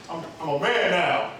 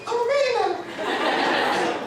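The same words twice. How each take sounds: First: Said in the usual way. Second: Very high, drawn-out squeal; squeaky teenage boast. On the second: Retold or imitated. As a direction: stretch it out in a cracking adolescent squeak. Squeaky redo of teenage claim.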